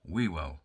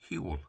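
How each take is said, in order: First: The first W sound is pronounced. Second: The first W sound is silent. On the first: The speaker calls it wrong. "which most people would pronounce Whewell" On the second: The speaker calls it right. "So it's Whewell. I could go on about the silent first W"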